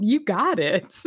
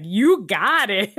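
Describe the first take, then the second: First: Slow cheesy grinning voice; mock grinning henchman; big grin delivery. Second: Slow, drawn-out cheesy grin voice; mock cheesy henchman; cheesy thumbs-up line. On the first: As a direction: say it through a big old grin. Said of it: "big old grin". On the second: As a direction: deliver it like a smug crook agreeing. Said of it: "cheesy thumbs up and he's like".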